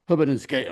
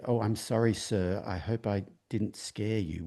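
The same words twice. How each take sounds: First: Said in the usual way. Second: Put-on soft, slow Southern US accent, polite; a hint of a Southern US accent, soft and slow. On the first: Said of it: "He didn't say". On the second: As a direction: gently apologize in a Southern US drawl. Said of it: "with a southern accent".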